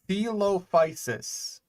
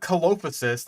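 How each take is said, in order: First: The word begins with a soft S sound. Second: The word begins with a hard K sound. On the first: The speaker calls it right. "the proper, like, soft C pronunciation" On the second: The speaker calls it wrong. "it's not Colophysis, like I've heard some people try to pronounce it"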